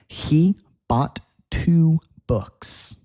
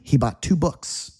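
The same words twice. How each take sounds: First: The sentence is said at a slow pace. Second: The sentence is said at a fast pace.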